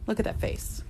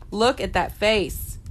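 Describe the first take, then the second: First: Breathy whisper over the cat; whispered adoration. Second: Drawn out slowly, lovingly; slow fond cooing; slow adoring. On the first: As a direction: hush it to a whisper. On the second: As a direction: stretch each word out. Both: Real, not acted.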